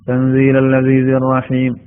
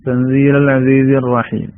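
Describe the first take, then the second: The two takes are said the same way.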